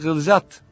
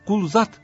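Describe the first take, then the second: First: The first vowel is unrounded, like 'ı'. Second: The first vowel is rounded, like 'u'. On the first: The speaker calls it right. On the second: The speaker calls it wrong.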